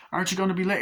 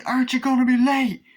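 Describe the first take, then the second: First: Said in the usual way. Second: Far higher and louder mock dad shout; high shouted correction. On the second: Shown as a demonstration. Fan correcting himself, doing the dad's shout high and loud. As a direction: yell it up high the way he does. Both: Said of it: "No, say".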